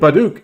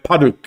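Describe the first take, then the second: First: The word begins with a voiced B sound. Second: The word begins with a voiceless P sound. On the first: The speaker calls it wrong. "because I'm mispronouncing it" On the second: The speaker calls it right. "it's pronounced Paduk, like like Paduk"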